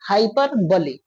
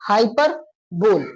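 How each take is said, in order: First: The word ends with a short 'bali' sound. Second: The word ends with a bare 'bol' sound. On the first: "कभी कभी किसी ने ऐसा use कर दिया हाइपर बली" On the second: "कुछ लोगों ने इसको हाइपर बोल करके उच्चारण कर दिया"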